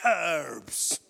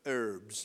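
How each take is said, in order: First: The word is said the way it is in England. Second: The word is said the way some others say it. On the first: "But in England, it's herbs" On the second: "as some people would say"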